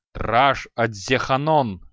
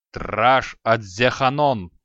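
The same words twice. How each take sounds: First: Slow, loud barked incantation repeated; roared spell. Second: Slow, loud barked incantation; roared spell. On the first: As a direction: bellow the spell once more. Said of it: "повторил Креол". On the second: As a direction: bellow the spell with all his strength. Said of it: "рявкнул Креол, что есть силы". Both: Acted. (громко рявкнутое заклинание)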